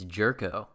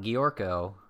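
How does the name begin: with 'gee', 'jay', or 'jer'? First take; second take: jer; gee. First: The name begins with a 'jer' sound. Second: The name begins with a 'gee' sound. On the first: The speaker calls it right. "It's Jerko" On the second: The speaker calls it wrong. "So it's not Giorko"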